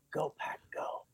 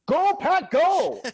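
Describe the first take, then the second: First: Hushed, whispered team chant; very quiet. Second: Loud, high-pitched fan chant; excited shout. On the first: Businessman testing a stranger in Tokyo, very quietly. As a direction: whisper it as a tentative test. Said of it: "he very quietly said". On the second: Japanese fan answering a stranger, excited shout. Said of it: "the guy turned around and said". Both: Retold or imitated.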